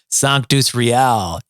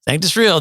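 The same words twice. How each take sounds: First: Real is said with a Latin-sounding pronunciation. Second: Real is said like the ordinary English word. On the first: Other people assume the word is Latin. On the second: This is how the band says its name.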